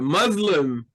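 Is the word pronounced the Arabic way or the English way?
English. The word is pronounced the English way.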